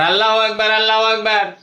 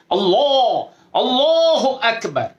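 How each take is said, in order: First: আল্লাহু আকবার clipped quick, no stretch; rushed takbir. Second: আল্লাহু আকবার lifted high and stretched slow; full-mouthed takbir. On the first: Teacher mocking a careless hurried takbir. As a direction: toss off আল্লাহু আকবার hastily. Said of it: "এটা কি একটা কথা হলো?". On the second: Teacher modeling the proper full-throated takbir. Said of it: "মুখটাকে ভরে". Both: Shown as a demonstration.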